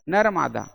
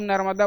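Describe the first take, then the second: First: The name is split into two separate parts. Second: The name is said quickly, run together as one. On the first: This is the original form of the name. The speaker calls it right. "है तो वास्तव में क्या चीज" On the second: This is the common form people use. The speaker calls it wrong. "तुम नर्मदा बोल के बल्कि गलती कर रहे थे"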